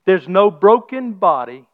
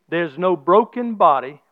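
First: No hit firmly, slow; slow preacher's repeat punching no; stress on no. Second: Broken held slow and heavy; slow preacher's line leaning on broken; stress on broken. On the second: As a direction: lean hard on broken, slow. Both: Shown as a demonstration.

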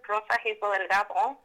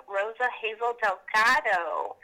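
First: Rosa Hazel Delgado said the Spanish way, with rolled R; un-Americanized Spanish Rosa Hazel Delgado; Spanish pronunciation. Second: Rosa Hazel Delgado said with English sounds; Americanized pronunciation. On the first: Shown as a demonstration. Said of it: "you said it with an accent". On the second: Retold or imitated. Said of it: "I definitely don't Americanize it".

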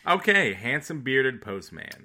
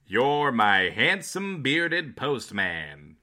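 First: Robin reading a clue. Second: Slow, loud announcer read; old radio announcer. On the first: Shown as a demonstration. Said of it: "I would like to read them more like". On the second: Acted. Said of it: "like an old-timey radio announcer".

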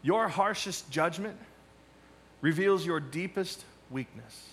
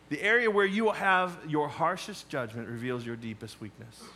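First: Slow, each word weighed, stress on "your" and "reveals"; a pastor's slow key-line delivery; slow emphatic statement. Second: Said in the usual way. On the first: Shown as a demonstration. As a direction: lean on "your" with a rise, then land hard on "reveals". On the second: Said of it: "What does that mean?".

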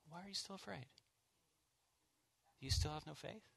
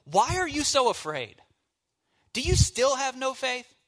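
First: Soft, tender and much quieter; gentle. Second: Loud, high, angry shout; harsh rebuke. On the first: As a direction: ask it gently, like a caring friend. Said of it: "in his gentleness". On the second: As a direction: yell it at them like a furious rebuke. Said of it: "Do you think Jesus said". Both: Shown as a demonstration.

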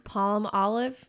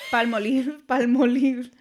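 First: "Palm olive" said slowly as two separate words; split into two words. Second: "Palmolive" said the Spanish way, pal-mo-LEEV; Spanish pronunciation. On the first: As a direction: pronounce "Palm olive" as palm, pause, olive. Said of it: "Palm and then olive". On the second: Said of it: "I'm saying it in Spanish". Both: Shown as a demonstration.

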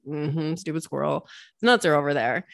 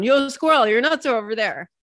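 First: Low, muttered eye-roll at the squirrel; eye-rolling scorn. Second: Calling down. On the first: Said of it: "rolling your eyes". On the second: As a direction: shout it down to the forest floor. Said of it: "you yell down". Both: Pretend.

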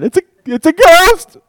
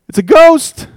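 First: High, loud panicked yell; mock terrified scream of a ghost; terrified shriek. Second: High, loud frightened shout; panicked yell of a ghost sighting; terrified cry. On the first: Shown as a demonstration. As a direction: shriek it in terror. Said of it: "I would sound something like that". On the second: A narrator's reading. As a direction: scream it like you've seen a ghost.

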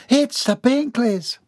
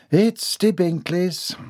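First: High, drawn-out delighted announcement; enthusiastic realization. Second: Slow, less thrilled announcement; unenthusiastic echo. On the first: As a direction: announce the guests with sudden glee. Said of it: "announced with enthusiastic realization". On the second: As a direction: repeat the news slowly, with less glee. Same news repeated with less enthusiasm. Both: A narrator's reading.

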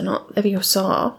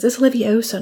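First: LEVIOSA ending on a long "saw"; wrong pronunciation. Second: LEVIOSA with stress on O; correct pronunciation. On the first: Hermione mocking Ron's LEVIOSA, ended on a long "saw". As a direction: drag out the last syllable of LEVIOSA as "saw". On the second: Hermione correcting Ron, LEVIOSA stressed on the O. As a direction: punch the O, short final "suh" in LEVIOSA. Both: Retold or imitated. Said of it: "so she says".

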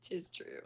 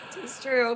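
First: Breathy whispered aside. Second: High, loud declaration; loud proclamation. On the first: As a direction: say it under your breath. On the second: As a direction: announce it proudly. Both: Acted. Playful repeated exclamation.

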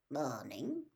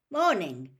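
First: Low, soft "Morning"; quiet, low return greeting; reserved reply. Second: Loud, bright "Morning"; bright greeting. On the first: Campsite manager answers a stranger's greeting, low and reserved. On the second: Father greets the campsite manager, brightly. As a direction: call out a cheery hello. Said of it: "said Mister Weasley brightly". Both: A narrator's reading.

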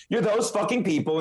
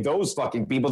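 First: Pointed stress through "those fucking people"; emphatic accusation. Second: Fast, lower clarifying aside; quick aside. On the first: Comic arguing against those who police jokes, emphatic accusation. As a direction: push out "those fucking people" in a rising-energy jab. Main point before clarifying aside. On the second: Comic clarifying whom he doesn't mean, quick aside. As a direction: toss it off quickly as a correction. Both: Real, not acted.

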